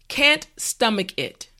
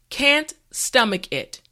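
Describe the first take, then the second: No difference in how they are said.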